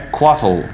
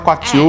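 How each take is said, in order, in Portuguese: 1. O nome termina com um som 'tle' ao estilo inglês. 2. O nome termina com uma sílaba 'til' clara. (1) "a pronúncia que aparece no D and D Beyond... é americanizada" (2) "todo mundo fala Quatil, mesmo estando errado"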